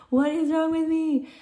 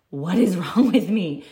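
First: A lightly hammed-up despairing wail, pitched way up; high mock wail. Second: Rueful laugh. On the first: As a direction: repeat it much higher, in a thin mock wail. Repeated question, voice thrown up. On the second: Retold or imitated. Crying spell retold, asks herself.

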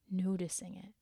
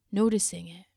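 First: Soft unvoiced whisper. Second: Said in the usual way. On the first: Urging the listener to notice, a gentle whisper. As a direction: breathe the words out as a whisper.

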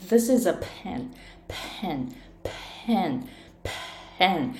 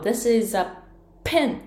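First: Pen with a long, airy P; 長いアスピレーション. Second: Pen with a quick, short P, set off by a pause; This is a pen, popping the P briefly; 短い破裂音. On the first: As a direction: stretch the puff of air after the P in pen. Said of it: "アスピレーション聞こえますか". (息たっぷりに長いPのpen) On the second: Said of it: "早く発音するみたいな感じ". (短く破裂させるPのpen) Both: Shown as a demonstration.

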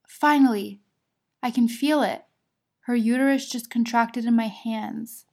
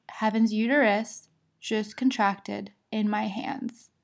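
First: Louder start, easing off; retold excitement. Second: Slow, measured retelling; deliberate repeat. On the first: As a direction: announce the long-awaited news as the midwife. Retelling midwife announcing the contraction. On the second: Retold or imitated. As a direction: spell out the news slowly for the doctor. Midwife repeats the news to OB.

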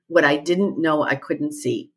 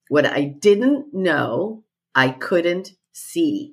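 First: Said in the usual way. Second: "What I didn't know I couldn't see" at half pace; slow deliberate repeat. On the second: Retold or imitated. Coach repeats her client's testimonial for emphasis, slow and deliberate.

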